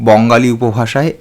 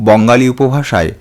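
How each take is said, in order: The two takes are said the same way.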